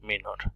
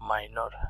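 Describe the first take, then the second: First: The first syllable sounds like 'mee'. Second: The first syllable sounds like 'my'. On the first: This is the Turkish pronunciation. "তারা মিনর বলেন" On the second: This is the English pronunciation. "আমরা মাইনর ইংরেজিতে বলি"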